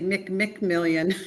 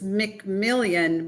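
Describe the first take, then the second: First: The opening 'Mc' syllable is said twice. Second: The opening 'Mc' syllable is said only once. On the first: The speaker calls it wrong. "I tend to say McMcMillian. It's a bad habit" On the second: The speaker calls it right. "it's McMillian"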